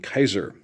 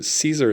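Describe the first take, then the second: First: The name begins with a hard k sound. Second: The name begins with a soft s sound. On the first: This is how it was said in old Latin. "the actual pronunciation and the sound of it in old Latin" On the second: This is a later, Spanish-like way of saying it. "Caesar is more of like Spanish"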